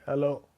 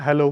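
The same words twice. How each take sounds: First: It is said in a disturbing, blurry voice. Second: It is said in a normal clear voice.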